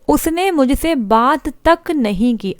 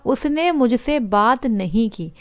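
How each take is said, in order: First: तक said slow and slightly raised, leaning on it; stress on तक. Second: Said in the usual way. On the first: Shown as a demonstration. Teacher showing students how तक adds weight, slow stress on तक. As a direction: lean into तक to weigh the sentence. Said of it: "यहाँ पर जोर दे दिया हमने". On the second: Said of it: "ठीक sentence है".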